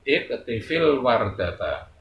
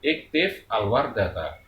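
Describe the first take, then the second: First: An i vowel after f links into wardata. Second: The f is silent, with a break before al. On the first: "kalau dibaca sambung" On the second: "kalau kita putus"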